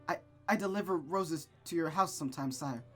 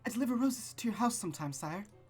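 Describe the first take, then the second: First: It is said without the character voice. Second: It is said in the character voice.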